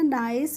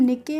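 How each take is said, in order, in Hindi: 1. इसमें 'eye' स्वर है और अंत 's' होता है। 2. इसमें 'ee' स्वर है और अंत 'keh' होता है। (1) "इसको हम पढ़ते हैं नाइस" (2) "निके नहीं पढ़ते हैं यार"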